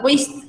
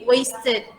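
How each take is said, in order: First: The word ends without an extra id syllable. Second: The word ends with an extra id syllable. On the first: The speaker calls it wrong. "enggak waste, waste enggak gitu" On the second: The speaker calls it right. "dibaca idnya wasted"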